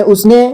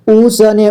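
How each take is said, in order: First: Said in the usual way. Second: "उसने" split as u-sa-ne; beginner's reading of "उसने" as u-sa-ne; sounded out letter by letter. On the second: Shown as a demonstration. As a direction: voice the sa separately in "उसने". Teacher sounds out, then reads whole.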